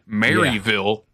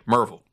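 First: The name is said in full, unreduced. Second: The name is said shortened and reduced. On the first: This is how outsiders say the name. "instead of saying Maryville" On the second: This is how locals say the name. "we say Merville"

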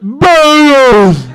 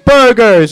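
First: It is said in a moaning voice. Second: It is said in a plain voice.

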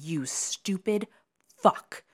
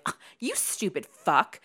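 First: It is said with intense, deliberate venom. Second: It is said in a light, prissy way.

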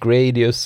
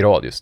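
First: The word is pronounced with English sounds. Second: The word is pronounced with Swedish sounds. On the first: "på engelska det blir det så här som man säger Gradius" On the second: "alla vi svenskar vet ju att Gradius är"

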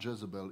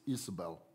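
First: The name begins with a J sound. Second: The name begins with a vowel sound. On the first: The speaker calls it wrong. "It literally is not Jezebel" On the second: The speaker calls it right. "is Isabel"

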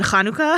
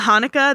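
First: The word has a Hebrew pronunciation. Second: The word has an American English pronunciation. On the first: It marks the speaker as more of an outsider. "more of a correct Hebrew pronunciation" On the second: It sounds less foreign and fits in. "It's easier for me to say Hanukkah"

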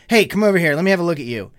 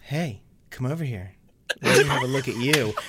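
First: It is read plainly and straight. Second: It is read in an exaggerated, funny way.

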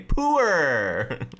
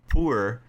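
First: The word is said in a Canadian accent. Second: The word is said in a non-Canadian accent. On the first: "Canadians say that word weird" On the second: "They don't say poor"

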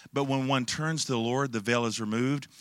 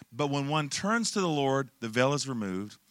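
Both takes have the same delivery.

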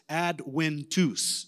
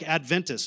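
First: The consonant after 'ad' sounds like English w. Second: The consonant after 'ad' sounds like English v. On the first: The speaker calls it right. "no, it's Adventus. ... So the V apparently is a W in Latin" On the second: The speaker calls it wrong. "It looks like Adventus"

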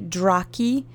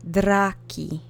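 First: The R sounds American, not rolled. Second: The R is rolled, Polish style.

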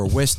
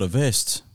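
First: The word begins with a W sound. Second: The word begins with a V sound. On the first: The speaker calls it wrong. "You're looking for a West" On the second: The speaker calls it right. "not a vest"

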